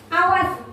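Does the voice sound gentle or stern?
stern. It is said in a stern, threatening tone. The speaker calls it right. "itu adalah posisi guru sebagai penghukum"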